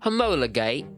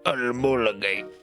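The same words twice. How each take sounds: First: The word is said in a British accent. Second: The word is said in a Russian accent. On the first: "now say it with a British accent" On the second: "now say it say it in your Russian accent"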